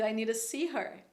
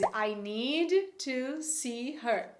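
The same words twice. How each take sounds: First: The word 'to' is reduced to a weak sound. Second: The word 'to' is said fully and clearly.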